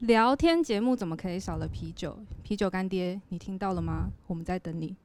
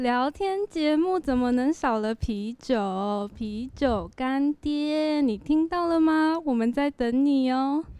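First: It is said in a plain everyday tone. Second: It is said in a happier, cheerful tone.

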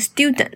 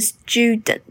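First: It is said with an American accent. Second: It is said with a British accent.

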